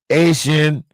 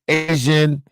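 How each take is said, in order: The two takes are said the same way.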